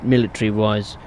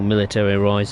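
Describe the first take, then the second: First: It is said with a British pronunciation. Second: It is said with an American pronunciation.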